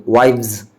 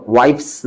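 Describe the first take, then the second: First: वाइव्स with V replacing the F; correct pronunciation. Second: वाइफ्स ending in a voiceless "fs"; wrong pronunciation. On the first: Teacher corrects the plural of wife, correctly pronounced. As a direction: say वाइव्स ending in "vz". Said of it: "यहाँ पर वाइफ्स नहीं पढ़ेंगे". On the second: Teacher warns against this plural reading, mispronounced. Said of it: "वाइफ्स नहीं पढ़ेंगे". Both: Shown as a demonstration.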